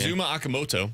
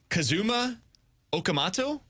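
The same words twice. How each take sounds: First: It is said fast and confidently. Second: It is said hesitantly and tentatively.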